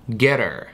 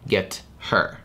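First: The h sound of her is dropped. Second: The h sound of her is pronounced. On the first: "мы убираем первый согласный звук полностью" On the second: "вместо ... get her"

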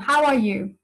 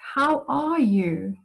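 First: It is asked casually, without real interest. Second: It is asked warmly, with sincere interest. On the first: The asker doesn't really want to hear the answer. "you don't show the intention in your voice" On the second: The asker genuinely wants to know how the other is doing. "my intention comes through that I actually want to hear how you are doing"

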